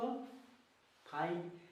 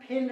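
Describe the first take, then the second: First: The vowel is a long 'eye' sound. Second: The vowel is a short 'i' sound. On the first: The speaker calls it right. "क्या पढ़ेंगे इसको" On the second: The speaker calls it wrong. "फिंड नहीं पढ़ना है, क्योंकि इसका उच्चारण गलत हो जाएगा"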